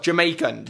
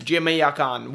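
First: Said in the usual way. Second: "Jamaican" in a mock Jamaican accent. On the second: Shown as a demonstration. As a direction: say "Jamaican" with a broad attempted island accent. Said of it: "we have got Jamaican".

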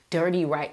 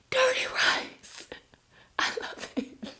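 First: Said in the usual way. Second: Breathy whisper after a gasp, much softer; gasp, then whisper the dish name. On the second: Real, not acted. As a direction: whisper it as if savouring a secret craving. Gasps at a fan's dinner.

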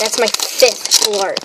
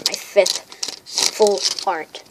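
First: Said in the usual way. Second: Slow, drawn-out emphasis. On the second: Real, not acted. Card collector marking a milestone for viewers, slow emphatic repeat. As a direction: stretch out "fifth full art" word by word. Same count repeated slowly for weight.

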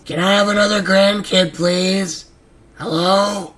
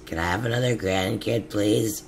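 First: High, loud pleading yell; loud exasperated begging; shouted plea. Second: Said in the usual way. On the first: Real, not acted. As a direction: shout the request across the room. Repeated begging finally shouted. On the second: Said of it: "repeated, then shouted".

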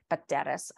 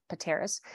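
First: Pateras with a Greek lilt, lower; Greek-accented Pateras. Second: Said in the usual way. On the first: Shown as a demonstration. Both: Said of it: "I try to say it with a Greek accent".

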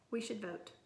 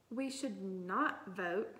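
First: Said in the usual way. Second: Slow, with "not" set apart emphatically; stress on "not". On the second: A narrator's reading. Girl objecting to classmate's call for a vote, "not" stressed emphatically. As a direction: lean hard and long on "not". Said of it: "banging her desk".

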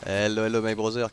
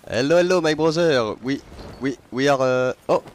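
First: "Hello, hello" in a hammed-up French accent, said at normal volume. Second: Put-on "Hello, hello" shouted higher and much louder in a thick French accent; loud French-accented call. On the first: Streamer greeting a Reaper crew, casual French-accented hello. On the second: Streamer hailing a passing ship, loud French-accented shout. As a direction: belt out the greeting in a hammed-up French accent. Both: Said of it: "j'en joue gavé du vieil accent franchouillard".

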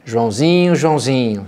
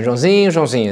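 First: Calling Joãozinho, a touch fed up; exasperated call. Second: A warning "Joãozinho", falling and a bit louder; testing my patience. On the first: Parent calling a child who's misbehaving, mildly exasperated. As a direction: call the boy's name like he's up to something again. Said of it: "como é que a gente faz isso?". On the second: Parent warning a child who's pushing it, falling warning tone. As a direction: let your patience wear thin on the name. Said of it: "Joãozinho, até muda, né, prime-, a entonação". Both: Shown as a demonstration.

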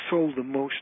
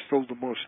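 The two takes are said the same way.

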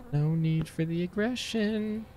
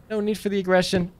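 First: Slow, hushed, higher-pitched plea; soft placating. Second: Said in the usual way. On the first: Real, not acted. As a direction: softly placate an aggressor, drawing it out. Placates the hostile game.

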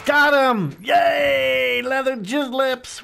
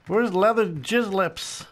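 First: High, loud victory shout; triumphant shout. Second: Said in the usual way. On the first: Real, not acted. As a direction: yell it out, thrilled to win. Gets the kill, celebrates.

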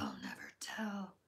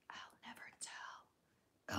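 First: Much lower spooky whisper; a low eerie whisper to the chat; deep mysterious whisper. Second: Very slow, breathy secret-keeping whisper; a slow coy whisper, teasing the viewer; mysterious whisper. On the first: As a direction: drop the pitch way down and hush it. Coy answer repeated, deeper. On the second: Coy answer to fake-or-real question. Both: Pretend.

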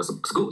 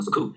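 First: SCHOOL said like "sgool", split after the s; voiced C in SCHOOL. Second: SCHOOL with a puff of air on the k; a hard, breathy k after the s in SCHOOL; aspirated K in SCHOOL. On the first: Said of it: "发生了一个清辅音的浊化". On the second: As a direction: say SCHOOL as s plus "cool". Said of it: "不能读成school". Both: Shown as a demonstration.

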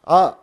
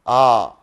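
First: आ said as a brief, short beat; short syllable. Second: आ held long on a lower pitch; long syllable. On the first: Teacher showing the class a small syllable, short आ. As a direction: cut the vowel आ short. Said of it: "एक छोटा syllable". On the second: Teacher showing the class a big syllable, long low आ. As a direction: draw the vowel आ out low. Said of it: "एक बड़ा syllable". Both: Shown as a demonstration.

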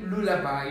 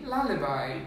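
First: "lullaby" as LOO-la-bye; wrong pronunciation shown. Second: "lullaby" as LAH-luh-bye; corrected pronunciation. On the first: Diction teacher showing what not to say, mistaken pronunciation. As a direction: put an oo in the first syllable of "lullaby". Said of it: "We don't say lullaby". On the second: Diction teacher correcting the class on lullaby, careful pronunciation. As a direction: open the first vowel of "lullaby" to ah. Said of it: "you say lullaby". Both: Shown as a demonstration.

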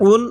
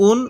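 First: "উন" pressed from the throat as ain; pressed Arabic ain. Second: "উন" begun as hamza, without pressure; unpressed hamza. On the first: Teacher sets the letters side by side, pressed ain "উন". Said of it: "আইনটা পড়ার সময় একটু চাপ দিয়ে পড়ব". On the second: Teacher sets the letters side by side, unpressed hamza "উন". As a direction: start "উন" lightly, no pressed ain. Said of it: "হামজাটা পড়ার সময় একটু চাপ দিব না". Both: Shown as a demonstration.

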